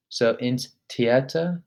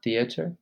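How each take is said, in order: First: "Theater" starting with a hard t, not th; slow model of "ins Theater", plain t sound; German T, no th. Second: "theater" with the English th sound; the wrong English way, "theater". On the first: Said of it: "Notice how I don't say th, I say ts". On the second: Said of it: "not theater". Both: Shown as a demonstration.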